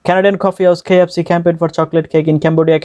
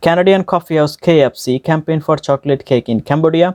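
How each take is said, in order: First: Connected tongue-twister run without pauses; all run together. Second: Slow, measured tongue twister; careful word-by-word reading. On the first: Teacher shows the whole thing at once, run together. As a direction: roll straight through in one even stream. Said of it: "এবার সম্পূর্ণটা একসাথে শুনুন". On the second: Teacher models the tongue twister for learners, slow and careful. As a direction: pronounce each word distinctly, unhurried. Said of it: "একটা একটা করে word উচ্চারণ করে". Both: Shown as a demonstration.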